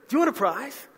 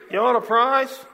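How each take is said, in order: First: It is said in a lively, excited tone. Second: It is said in a flat, dull tone.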